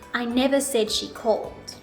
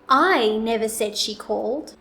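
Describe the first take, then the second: First: No word stands out; the delivery is flat. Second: The word "I" is louder, longer and higher. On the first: "I'll first say it with no intonation" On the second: "I will place the emphasis on the word I"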